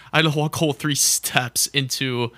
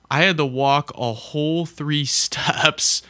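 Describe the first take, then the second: First: Said in the usual way. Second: Cracking up mid-sentence; laughing through the words. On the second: Real, not acted. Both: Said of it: "I can't even say that with a straight face".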